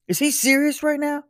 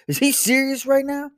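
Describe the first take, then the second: First: Put-on higher indignant kid voice, odd timbre. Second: Put-on higher indignant kid voice. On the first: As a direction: repeat the outrage as the big brother. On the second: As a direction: play the outraged older brother. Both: Older son protests to dad, high and indignant.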